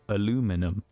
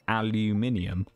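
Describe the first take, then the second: First: It is said the American way, with four syllables. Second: It is said the British way, with five syllables. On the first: This is how America says it. The speaker calls it wrong. "they pronounce it" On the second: This is how the rest of the world says it. The speaker calls it right. "we pronounce it"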